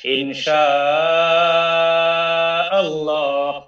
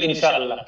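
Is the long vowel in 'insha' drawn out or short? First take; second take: drawn out; short. First: The vowel before the hamza is drawn out. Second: The vowel before the hamza is short. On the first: This is Quranic recitation. "কোরআনে যখন আসবে তখন আমি বলবো" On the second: This is everyday conversational speech. "বাংলায় কথা বলার সময় বলি"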